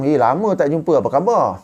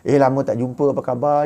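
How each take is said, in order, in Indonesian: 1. Nadanya terdengar hangat dan ramah. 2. Nadanya terdengar kesal dan jijik.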